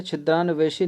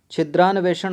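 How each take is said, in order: First: छिद्रान्वेषी ending in -ṣī; wrong -ī ending. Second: छिद्रान्वेषण ending in -ṣaṇ; correct noun ending. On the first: Teacher rejecting a wrong form, छिद्रान्वेषी with -ṣī ending. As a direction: end छिद्रान्वेषी on a long ī. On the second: Teacher correcting an answer, छिद्रान्वेषण with its -ṣaṇ ending. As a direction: end छिद्रान्वेषण on a retroflex ण. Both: Shown as a demonstration. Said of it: "छिद्रान्वेषी नहीं होता है".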